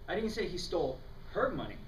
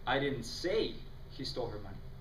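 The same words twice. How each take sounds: First: The emphasis falls on the word her. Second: The emphasis falls on the word he.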